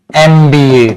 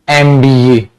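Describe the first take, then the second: No difference in how they are said.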